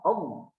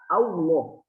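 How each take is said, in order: First: The l follows directly with no w sound. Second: A w sound slips in before the l. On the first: The speaker calls it right. "Tapi langsung lam" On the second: The speaker calls it wrong. "Contoh yang salah"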